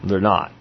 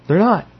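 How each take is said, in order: First: Said in the usual way. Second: "not" punched high and loud; stress on not. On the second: Shown as a demonstration. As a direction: hit "not" hard and firmly.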